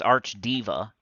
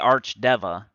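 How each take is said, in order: First: The second part is said like 'diva'. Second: The second part is said like 'deva'. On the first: This is someone else's pronunciation. "He said it's Archdiva" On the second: This is the speaker's own pronunciation. "I say Archdeva"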